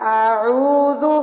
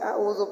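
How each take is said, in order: First: The alif and ain sounds are clearly distinct. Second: The alif and ain sounds blend together. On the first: The speaker calls it right. "पहले अलिफ को अदा करना है, फिर आइन को अदा करना है" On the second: The speaker calls it wrong. "वो फ़र्क नहीं करते और सिंपली आऊज़ु पढ़ देते हैं"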